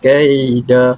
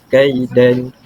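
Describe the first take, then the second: First: The word ends on an open vowel. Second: The word ends with an n sound. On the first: The speaker calls it right. "Jadi bacaan dia kaida" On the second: The speaker calls it wrong. "bukannya kaidan"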